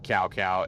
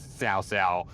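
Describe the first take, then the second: First: Each syllable starts with a hard K sound. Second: Each syllable starts with a hissing S sound. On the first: The speaker calls it wrong. "it's not Cow Cow" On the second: The speaker calls it right. "it is Sao Sao"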